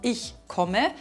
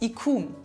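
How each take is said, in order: First: The word ends with a pronounced final vowel. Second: The word ends without the final vowel.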